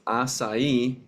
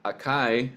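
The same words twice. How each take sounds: First: The C is pronounced like an S. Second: The C is not pronounced like an S. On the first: The speaker calls it right. "it's pronounced acai" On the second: The speaker calls it wrong. "not acai"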